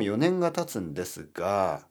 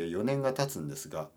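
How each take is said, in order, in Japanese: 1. 語尾が軽くておどけた感じです。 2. 語尾が硬くて緊張した感じです。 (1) "こういうなんかちょっとちょっとコメディっぽい話し方だったらいいですね" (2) "チャーミングじゃない話し方をすると急に硬くなりすぎて"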